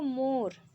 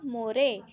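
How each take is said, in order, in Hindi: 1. शब्द R ध्वनि पर खत्म होता है। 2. R के बाद एक अतिरिक्त स्वर ध्वनि बोली जाती है। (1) "लेकिन हमने क्या पढ़ा इसको" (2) "अगर ई को भी पढ़ते तो क्या हो जाता"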